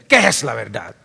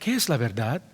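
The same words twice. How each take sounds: First: It is asked sarcastically, mocking the idea. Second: It is asked as a sincere question.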